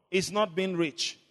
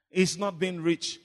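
The two takes are said the same way.

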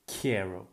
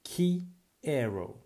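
First: Said in the usual way. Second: Quiero drawn out slowly as kie-ro, syllables separated; slow model word. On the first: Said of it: "That's the first thing". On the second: Shown as a demonstration. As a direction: stretch Quiero out syllable by syllable for the learner. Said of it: "And it means I want".

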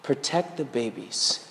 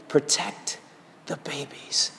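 First: Soft, hushed and slow; God's whisper. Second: Soft hushed voice fading away; God's whisper. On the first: God whispering to him in the car, hushed and slow. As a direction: hush it like a still small voice. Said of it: "I believe God whispered to me". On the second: The Lord whispering through the chaos, hushed and fading. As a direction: breathe it like a quiet voice from God. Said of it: "the Lord whispered to me". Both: Retold or imitated.

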